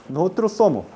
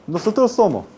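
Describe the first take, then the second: No difference in how they are said.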